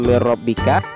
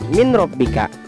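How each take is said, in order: First: The n merges into the following r. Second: The n is pronounced before the r. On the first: The speaker calls it right. "dibaca mir rabbika" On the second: The speaker calls it wrong. "dan tidak min rabbika"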